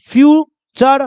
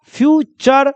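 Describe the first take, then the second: First: फ्यूचर drawn out slowly, clear ch sound; slow model word. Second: Said in the usual way. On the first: Shown as a demonstration. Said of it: "इसको क्या बोलिएगा?". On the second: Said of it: "क्या बोलिएगा?".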